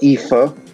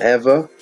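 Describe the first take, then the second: First: The middle consonant is a 'th' sound. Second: The middle consonant is a 'v' sound. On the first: The speaker calls it right. "I think you pronounce it Ether" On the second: The speaker calls it wrong. "I pronounce it Ever"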